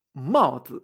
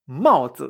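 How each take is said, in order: First: "maozi" again, lower, falling mao and light zi; slow repeat. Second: "maozi" with a falling mao and light zi; maozi, fourth tone then neutral. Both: Shown as a demonstration. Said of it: "Gorro en chino se dice maozi".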